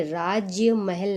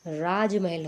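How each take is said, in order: First: राज्य महल with an extra y, "raajya mahal"; two words, राज्य महल, with y glide; wrong form demo. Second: राजमहल as one word, "raaj-mahal"; no y glide in राजमहल; correct form demo. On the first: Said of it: "राज्य महल नहीं होता है". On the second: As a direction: run j straight into m in राजमहल. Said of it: "राजमहल होता है". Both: Shown as a demonstration.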